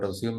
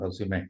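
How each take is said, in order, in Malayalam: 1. വാക്ക് അവസാന വ്യഞ്ജനത്തിലാണ് അവസാനിക്കുന്നത്. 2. വാക്ക് ചേർത്ത ഒരു സ്വര ശബ്ദത്തോടെയാണ് അവസാനിക്കുന്നത്. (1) "റെസ്യൂം എന്നല്ല" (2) "റെസ്യൂമെ എന്നാണ്"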